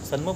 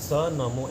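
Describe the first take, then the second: First: The n is half, joined into one word. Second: Sa is separate, followed by a full namo. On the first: The speaker calls it wrong. "સન્મોમાં ન અડધો થઈ જાય" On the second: The speaker calls it right. "સ નમો એમ બોલવાનું છે"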